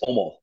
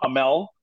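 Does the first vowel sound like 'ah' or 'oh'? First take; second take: oh; ah. First: The first vowel sounds like 'oh'. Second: The first vowel sounds like 'ah'. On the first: The speaker calls it right. "it's Omol" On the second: The speaker calls it wrong. "for the North American, it's not Amel"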